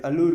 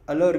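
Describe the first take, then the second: First: अल्लूर said as al-loor, long oo, as spelt; the spelling-helper way, अल्लूर with a full long oo; spelling pronunciation. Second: अलर said short as uh-ler, no long oo; the real way: अलर, clipped uh-lur; अलर as a native says allure, unstressed first vowel; actual pronunciation. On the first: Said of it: "spelling के लिए उसको दूसरा भी pronounce". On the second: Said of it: "Actually उसका pronunciation होता है अलर". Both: Shown as a demonstration.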